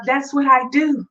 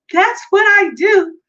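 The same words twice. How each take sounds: First: Said in the usual way. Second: Higher, louder proud repeat; emphatic and louder. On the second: Shown as a demonstration. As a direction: punch it out with pride.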